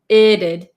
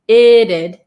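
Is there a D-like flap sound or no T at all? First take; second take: flap; flap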